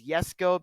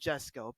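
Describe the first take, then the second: First: The name is said with a Swedish pronunciation. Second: The name is said with an English-style pronunciation. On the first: The speaker calls it right. "the correct pronunciation is Jesko because it's Swedish" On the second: The speaker calls it wrong. "I would always say Jesko"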